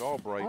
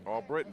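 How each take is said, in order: First: The middle syllable sounds like 'bright'. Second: The middle syllable sounds like 'brit'. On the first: The speaker calls it wrong. "The announcer just said all Brighton" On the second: The speaker calls it right. "but it's Mary Albritton"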